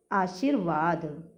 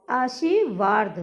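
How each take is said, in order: First: आशीर्वाद with r before v, "aasheer-vaad"; correct आशीर्वाद. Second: आशीर्वाद with r moved late, "aashee-vaard"; mispronounced आशीर्वाद. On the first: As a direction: sound r at the end of "sheer" in आशीर्वाद. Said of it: "जबकि शुद्ध शब्द होता है". (आशीर्वाद में र पहले, "आ-शीर्-वाद") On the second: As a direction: shift the r of आशीर्वाद into the last syllable. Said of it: "ये लिखा है". (आशीर्वाद का गलत उच्चारण, "आशीवार्द") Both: Shown as a demonstration.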